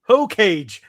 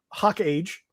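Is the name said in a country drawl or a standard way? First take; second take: standard; country drawl. First: The name is said smoothly as one word. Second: The name is drawled like two words, hawk age.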